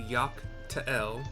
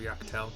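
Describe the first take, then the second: First: The last word has two syllables. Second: The last word has one syllable. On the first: It follows the written apostrophe. "I'm pronouncing it Ta'el because it's T apostrophe E L" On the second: It follows how others say it. "everybody else has been pronouncing it in the voiceovers as Tel"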